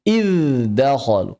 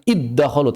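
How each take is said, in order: First: "iddakhalu" said slowly as "idz-dakhalu"; unmerged, drawn-out "idz-dakhalu"; clear izhar. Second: "iddakhalu" with dz swallowed into a double d; merged idgham. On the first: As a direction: buzz a dz before the d in "iddakhalu". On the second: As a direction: run it together as "iddakhalu". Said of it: "Jangan dibaca idgham". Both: Shown as a demonstration.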